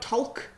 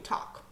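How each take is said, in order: First: The L is sounded in the word. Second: The L is silent in the word. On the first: The speaker calls it wrong. "We don't talk to people" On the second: The speaker calls it right. "we talk"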